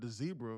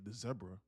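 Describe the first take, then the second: First: It is said with an American accent. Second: It is said with a British accent.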